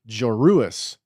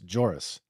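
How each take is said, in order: First: The name has three syllables, with separate u sounds. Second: The name has two syllables, like its spelling. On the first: This copies how the toy company presenter said it. "She called him uh, Joruus Sabayoth" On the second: This follows how the name is spelled. "J O R U S"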